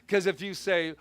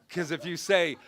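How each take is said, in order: No difference in how they are said.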